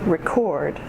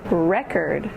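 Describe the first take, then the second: First: The stress is on the second syllable. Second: The stress is on the first syllable. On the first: It is used as a verb. "the verbs have emphasis on the second syllable" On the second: It is used as a noun. "The nouns have emphasis on the first syllable"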